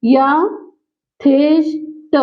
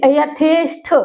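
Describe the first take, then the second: First: यथेष्ट broken very slowly into य, थेष्, ट; syllable by syllable. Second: यथेष्ट ending in an aspirated ठ; careful यथेष्ट with final ठ sound. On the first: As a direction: spell out यथेष्ट in slow pieces, ending on plain ट. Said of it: "लेकिन शुद्ध रूप इसका क्या". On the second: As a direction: say यथेष्ट with a breath-puffed ṭh at the end. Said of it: "वो टा में परिवर्तित हो जाएगा". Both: Shown as a demonstration.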